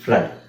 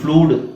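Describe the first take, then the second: First: The vowel sounds like 'uh'. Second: The vowel sounds like 'oo'. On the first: The speaker calls it right. "ಇವೆರಡನ್ನು ನಾವು ಅ ಅಂತ ಹೇಳಬೇಕು" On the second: The speaker calls it wrong. "ಅಂತ ಹೇಳಂಗಿಲ್ಲ"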